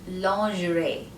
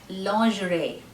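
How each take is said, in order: The two takes are said the same way.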